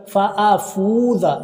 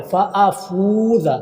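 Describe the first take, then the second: First: फ़ाफूज़ा with the wrong letter held long; the wrong way, stretching the hamza; wrong reading. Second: फ़ाफूज़ा with the फ़ा held long; correct reading. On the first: Teacher demonstrating a mistake to students, slow. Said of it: "फ़ाफूज़ा नहीं पढ़ना है". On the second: Teacher showing students the correct stretch, slow. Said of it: "फ़ा को आपने लंबा करना है". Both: Shown as a demonstration.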